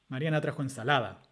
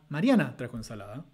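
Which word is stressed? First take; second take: ensalada; Mariana. First: The main stress falls on the last word. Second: The main stress falls on the first word. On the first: The speaker calls it wrong. "con el acento nuclear al final. ... Suena raro" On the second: The speaker calls it right. "si ponemos el acento nuclear al principio sobre el sujeto ... Suena más natural"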